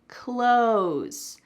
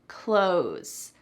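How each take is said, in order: First: The TH sound is dropped, like 'close'. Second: The same.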